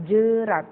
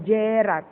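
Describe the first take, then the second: First: "jerat" with a reduced schwa e, a bit louder; weak e. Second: "jerat" with a full clear e, slowly; the wrong way, jerat with an open e as in "bed"; slow contrast take of jerat with a hard e; hard e wrongly. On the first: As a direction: say jerat as juh-rat with a short weak e. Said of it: "E-nya dilemahkan". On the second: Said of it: "bukan jerat". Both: Shown as a demonstration.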